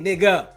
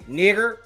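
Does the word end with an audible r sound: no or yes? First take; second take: no; yes. First: The word ends in a vowel without an r. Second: The word ends with an audible r sound.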